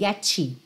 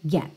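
First: It ends with an extra vowel after the T. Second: It ends on a T that is not released. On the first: The speaker calls it wrong. "coloca uma vogal ali e faz assim" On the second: The speaker calls it right. "chego a botar a língua no T, mas eu não chego a soltar esse T mesmo"

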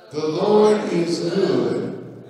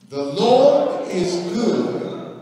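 First: It is read in a plain, ordinary voice. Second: It is read in a solemn, preaching voice.

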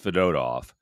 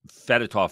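First: The stress is on the middle syllable. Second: The stress is not on the middle syllable. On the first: The speaker calls it right. "in Russian, the middle syllable is the big one" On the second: The speaker calls it wrong. "We were calling him Fedotov forever"

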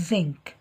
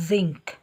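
The two takes are said the same way.

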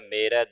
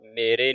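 First: The word ends in an 'ai' vowel. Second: The word ends in an 'e' vowel. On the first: The speaker calls it right. "ਦਲਾਵਾਂ ਦੇ ਨਾਲ ਉਚਾਰਨ ਕਰਨਾ ਹੈ" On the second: The speaker calls it wrong. "ਮੇਰੇ ਨਹੀਂ ਕਹਿ ਦੇਣਾ"

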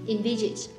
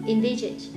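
Both takes have the same delivery.

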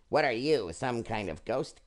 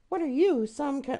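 First: It is said in a more fitting character voice. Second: It is said in a silly character voice.

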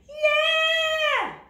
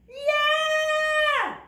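The two takes are said the same way.

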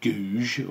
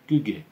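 First: The first vowel is a long 'oo' sound. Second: The first vowel is a short sound. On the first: The speaker calls it wrong. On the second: The speaker calls it right.

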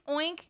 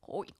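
First: It is read out as an ordinary word. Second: It is voiced as an imitation of a pig. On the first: The speaker calls it wrong. "Pigs don't say oink" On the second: The speaker calls it right. "They go oink"

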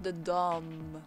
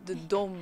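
First: Dom has a short o like mom. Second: Dom has a long o like dome. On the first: The speaker calls it wrong. "not the Dom" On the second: The speaker calls it right. "like the dome"

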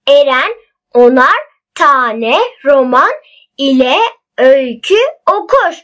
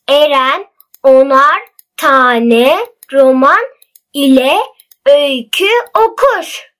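First: The sentence is read at a faster pace. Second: The sentence is read at a slower pace.

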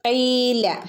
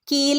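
First: It begins with a deep throat q sound. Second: It begins with a plain front k sound. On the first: The speaker calls it right. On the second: The speaker calls it wrong.

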